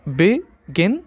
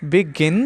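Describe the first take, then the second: First: "begin" in two parts, "be", long pause, "gin"; split into syllables. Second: Said in the usual way. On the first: Shown as a demonstration. Teacher shows students the two syllables, saying "begin" split as be, gin. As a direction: break "begin" apart after "be". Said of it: "two syllables". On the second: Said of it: "Examples are".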